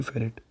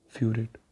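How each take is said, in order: First: फेरेट said as "fe-ret" with a short e, no "fyoo"; correct pronunciation. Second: फ्यूरेट said with a long "fyoo" at the start, the wrong way; wrong pronunciation. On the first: Teacher corrects students to फेरेट, short fe-ret. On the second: Teacher shows students the wrong name फ्यूरेट, fyoo-ret. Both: Shown as a demonstration. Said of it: "फ्यूरेट नहीं, फेरेट".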